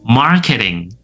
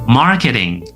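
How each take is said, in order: Both takes have the same delivery.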